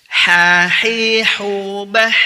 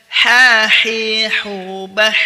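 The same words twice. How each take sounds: Both takes have the same delivery.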